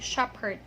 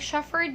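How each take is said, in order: First: The middle consonant is a P sound. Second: The middle consonant is an F sound. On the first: The speaker calls it right. "you say shepherd" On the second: The speaker calls it wrong. "you don't say shepherd"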